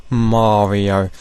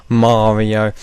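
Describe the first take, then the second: No difference in how they are said.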